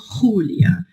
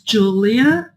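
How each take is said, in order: First: The name is pronounced the Spanish way. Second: The name is pronounced the English way. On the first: "E se eu falo em espanhol" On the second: "Se eu falo em inglês"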